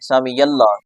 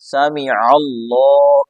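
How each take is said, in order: First: A y glide links sami to allah. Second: A throaty ain sound is made from the throat. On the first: The speaker calls it wrong. "बल्कि या भी पढ़ देते हैं" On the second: The speaker calls it right. "तो आइन निकालना है, या यहाँ पे नहीं है।"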